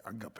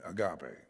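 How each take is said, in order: First: "agape" with stressed first syllable; alternative pronunciation. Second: "agape" with stressed middle syllable; heard pronunciation. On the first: Preacher offering his guess, "agape" as AH-guh-pay. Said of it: "I think it's like agape". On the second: Unsure preacher giving "agape" as heard, uh-GAH-pay. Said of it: "I don't know how they pronounce it". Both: Shown as a demonstration.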